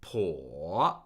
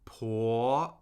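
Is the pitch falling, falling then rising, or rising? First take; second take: falling then rising; rising. First: The pitch dips low, then rises higher. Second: The pitch rises steadily from mid to high. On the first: "the third tone falls and rises" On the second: "Second tone is steadily rising"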